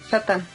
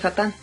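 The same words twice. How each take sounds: First: The stress is on the first syllable. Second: The stress is on the last syllable. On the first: This is how the original language says it. "el original dicen Satán" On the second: This is not how the original language says it. "no dicen Satán"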